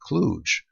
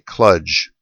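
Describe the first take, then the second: First: The word is said with the American pronunciation. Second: The word is said with the British pronunciation. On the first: "we here on this side of the Atlantic ... proclivity to say kludge" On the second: "Our British cousins, he reports, tend to say kludge"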